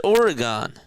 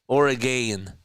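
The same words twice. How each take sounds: First: Oregon ending in an open "gahn", OR-uh-gahn; South Jersey Oregon. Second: Oregon with a short unstressed last syllable, ORE-uh-gun; Oregon as "OR-uh-gun", the standard West Coast way. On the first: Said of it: "That's how we pronounce it in South Jersey". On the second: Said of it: "You pronounce it Oregon". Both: Shown as a demonstration.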